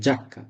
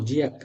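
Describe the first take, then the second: First: The i is silent, giving 'ja-kka'. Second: The i is sounded, giving 'jee-ah-kka'. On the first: The speaker calls it right. "না জাক্কা" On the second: The speaker calls it wrong. "এখন আপনি যদি বলেন জি ই আ জিয়া জিয়াক্কা নো"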